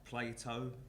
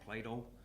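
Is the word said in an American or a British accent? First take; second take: British; American. First: It is said in a British accent. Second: It is said in an American accent. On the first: "we might say" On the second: "with an American or possibly even a New York accent"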